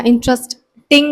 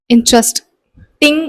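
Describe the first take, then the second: First: Interesting said slowly with a clear ting at the end; Interesting, every syllable sounded, ting included; full ending. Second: Interesting said slowly with the final ting dropped; interesting mumbled at the end, no clear ting; swallowed ending. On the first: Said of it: "where is ting?". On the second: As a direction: let the end of interesting fade away. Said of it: "tang कहाँ गया?". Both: Shown as a demonstration.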